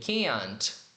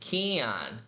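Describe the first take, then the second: First: The final t is clearly pronounced. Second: The final t is dropped and the vowel lengthened. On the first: "Se a gente for marcar o T, seria can't" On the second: "a tendência de falar esse can na negação vai ser justamente assim, ... como se fosse um som mais longo"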